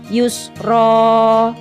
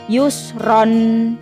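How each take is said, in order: First: The word ends with an open vowel. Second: The word ends with an n sound. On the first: The speaker calls it right. "yang benar adalah yusro" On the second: The speaker calls it wrong. "bukan yusron"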